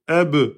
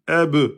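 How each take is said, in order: The two takes are said the same way.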